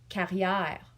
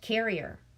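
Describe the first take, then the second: First: The name is said with a French accent. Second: The name is said with an English accent. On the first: "His last name was Carrière" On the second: "But when you say it in English"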